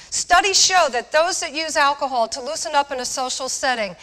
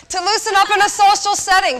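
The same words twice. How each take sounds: First: Said in the usual way. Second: Higher and louder, punching it out; emphatic answer. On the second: Real, not acted. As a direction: slam home the answer to the audience. Punchline answer to the audience question.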